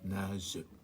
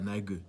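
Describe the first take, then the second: First: The g is a soft zh sound. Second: The g is a hard g sound. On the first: The speaker calls it right. "Nage, on dit pas nague, nage" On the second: The speaker calls it wrong. "on dit pas nague"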